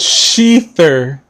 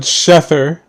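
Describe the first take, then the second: First: The word rhymes with Ether. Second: The word does not rhyme with Ether. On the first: The speaker calls it right. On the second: The speaker calls it wrong.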